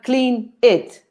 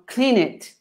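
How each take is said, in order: First: The two words are said separately. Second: The final consonant links into the next vowel. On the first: The speaker calls it wrong. "It's not clean it" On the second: The speaker calls it right. "You know, clean it"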